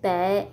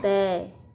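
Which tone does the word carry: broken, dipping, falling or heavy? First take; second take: heavy; falling. First: The word has a heavy, low, glottal-cut tone. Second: The word has a low falling tone. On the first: "Dấu nặng" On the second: "Thêm dấu huyền ra chữ"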